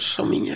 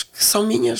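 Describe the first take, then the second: First: A soft whispered echo. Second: Said in the usual way. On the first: Real, not acted. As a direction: whisper the repeat to herself. Repeats the phrase, dropping to whisper.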